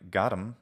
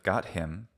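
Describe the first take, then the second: First: The h in 'him' is dropped. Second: The h in 'him' is pronounced. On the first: "something like like got him instead of" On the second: "instead of got him"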